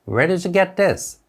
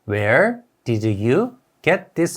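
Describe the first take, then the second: First: 'Where did you' runs together into one linked chunk. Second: 'Where did you' is pronounced word by word, fully. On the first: "Where did you가 연음으로 되어서" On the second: "우리가 아는 소리는"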